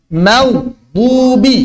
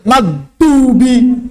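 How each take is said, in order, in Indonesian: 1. Konsonan tengahnya dibuat dengan sisi lidah. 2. Konsonan tengahnya adalah d biasa. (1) "Yang tepat adalah huruf dhad" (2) "Jadi dal"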